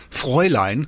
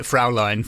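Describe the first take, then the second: First: FRÄULEIN said slowly as FROY-line; correct German pronunciation. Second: FRAULEIN said as FROW-line; mispronounced German. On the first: Host demonstrating the German word, FRÄULEIN pronounced FROY-line. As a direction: say Fräulein with an "oy" first syllable. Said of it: "didn't know how to pronounce". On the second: Author confessing the audiobook mistake, FRAULEIN pronounced FROW-line. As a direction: say Fraulein with an "ow" first syllable. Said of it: "So I do pronounce it". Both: Shown as a demonstration.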